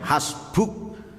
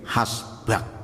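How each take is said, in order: First: The final vowel is dropped after u. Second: The final vowel moves inward as a. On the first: This is read when stopping on the word. "Ketika diwakafkan bisa jadi dibaca hasbuk" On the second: The final vowel shifts back when stopping. "harokat depannya diundurkan menjadi hasbak"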